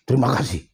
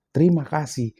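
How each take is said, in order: First: It is said in an angry tone. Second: It is said warmly, with a smile.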